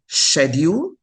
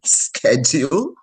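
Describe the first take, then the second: First: The word is said with a British pronunciation. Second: The word is said with an American pronunciation. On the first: This is how the speaker naturally said it. The speaker calls it wrong. "I would say schedule" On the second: This is how the speaker was expected to say it. The speaker calls it right. "I'm supposed to be saying schedule"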